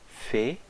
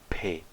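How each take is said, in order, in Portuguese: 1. Começa com um som suave e sibilante, como f. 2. Começa com um som duro e fechado, como p. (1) "sem o dagesh" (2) "com o dagesh"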